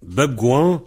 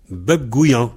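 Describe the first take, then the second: First: "Beb gouan" with gou running straight into an; variante sans I. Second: "beb gouillan" as gou-i-an; variante avec I. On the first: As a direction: keep "gouan" free of any Y glide. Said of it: "on dit un gouan". (« Beb gouan » sans I au milieu) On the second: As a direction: add an I before the last vowel of "gouillan". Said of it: "il y a un I entre gou et an". (« beb gouillan » avec un I au milieu) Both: Shown as a demonstration.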